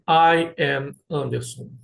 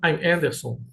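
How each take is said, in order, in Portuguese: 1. As duas palavras 'I am' são ditas por extenso. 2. 'I am' é contraído em uma só sílaba. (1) "você não vai escutar eu falando assim" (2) "Vou falar I'm Anderson"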